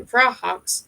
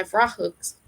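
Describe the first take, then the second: First: "Vrahawks" ending in an "hawks" sound; corrected name. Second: "Vrahooks" ending in an "hooks" sound; mispronounced name. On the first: Narrator correcting the name to "Vrahawks", second syllable said like "hawks". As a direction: say "Vrahawks" with an open "aw" at the end. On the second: Narrator slipping on the name "Vrahooks", second syllable said like "hooks". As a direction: say "Vrahooks" with the vowel of "book" at the end. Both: Real, not acted. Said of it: "sorry, Vrahawks".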